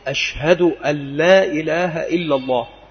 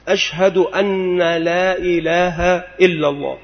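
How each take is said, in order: First: The n of 'an' is single. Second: The n of 'an' is doubled. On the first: The speaker calls it right. "فالنطق الصحيح" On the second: The speaker calls it wrong. "بتشديد أن"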